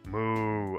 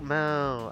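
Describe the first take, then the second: First: The moo is low-pitched. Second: The moo is high-pitched.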